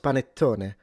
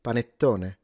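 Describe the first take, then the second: The two takes are said the same way.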